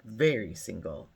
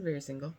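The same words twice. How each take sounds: First: Low, drawn emphasis on "Very"; mock-deep emphatic reply. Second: Said in the usual way. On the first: Man at the pool answers if he's single, imitated low and emphatic. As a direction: imitate him, dropping low and falling. Retelling his answer to her question.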